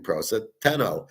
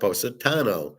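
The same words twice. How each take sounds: First: The 'ta' sounds like the word 'tan'. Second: The 'ta' does not sound like 'tan'. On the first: The speaker calls it wrong. "I'm doing Positano for tan" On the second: The speaker calls it right. "it's really pronounced Positano"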